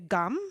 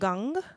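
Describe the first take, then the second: First: The word ends with a closed-lips 'm' sound. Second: The word ends with a back-of-throat 'ng' sound. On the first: "more like the way it's spelled" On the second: "I use this more back of the throat um, pronunciation"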